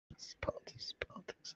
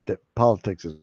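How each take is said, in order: First: Breathy conspiratorial whisper of politics. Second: Said in the usual way. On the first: Acted. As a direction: drop to a secret whisper on politics. Repeating politics, then whispering it.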